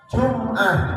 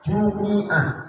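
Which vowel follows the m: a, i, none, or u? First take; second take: none; i. First: No vowel is sounded after the m. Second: An i vowel is sounded after the m. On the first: "mimnya mati" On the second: "membaca mimnya di kasroh"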